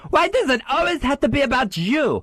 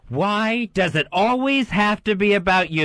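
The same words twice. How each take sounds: First: It is said high, squeaky, with French accent. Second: It is said in his normal voice.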